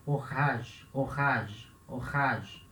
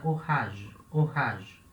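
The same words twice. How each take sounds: First: 'orage' with a rasped throat R in the middle; 'orage' with its R scraped harder in the throat; emphasized French R. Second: Light throat R in 'orage'; natural fluid R. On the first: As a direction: lean on the guttural R inside 'orage'. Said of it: "um pouco mais de ênfase". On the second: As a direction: let the R glide through 'orage' unforced. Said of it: "bem fluido". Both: Shown as a demonstration.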